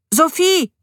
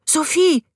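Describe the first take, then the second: First: Loud high call of her name from outside the house; boy shouts for his stepmother, eager to show his find. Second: Name said high, full of pride; proud. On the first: Boy calls Sophie from outside, loud and eager. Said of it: "rief er noch". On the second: Boy presenting his find to his stepmother, proudly. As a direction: swell with pride as you say her name. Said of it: "Stolz quoll aus seiner Stimme". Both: A narrator's reading.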